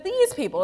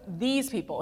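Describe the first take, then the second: First: "these" jumps high and hits hard; stress on these. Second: "these" pushed, set apart from "people"; stress on these. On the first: Pastor contrasting Moses' words, hard stress on "these". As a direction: punch "these" up high, distancing. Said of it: "He says". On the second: Pastor stressing Moses' words, weight on "these". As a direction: lean on "these", not "my". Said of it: "how he notes". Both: Shown as a demonstration.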